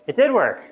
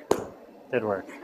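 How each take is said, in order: First: Pitched-up, louder burst of surprise; surprised. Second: Said in the usual way. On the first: Real, not acted. Lecturer reacting to the class demo, surprised burst. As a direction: blurt it as the trick unexpectedly works. Demo suddenly works after all.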